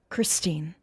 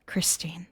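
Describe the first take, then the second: First: Said in the usual way. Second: Hushed whisper of her name. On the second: Acted. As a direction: breathe the name. Soft echo after title.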